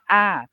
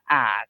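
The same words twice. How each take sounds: First: The pitch falls from high to low. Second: The pitch stays low. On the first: "siang to atau falling tone yang kita sebutnya a" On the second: "siang ek atau low tone kita sebutnya a"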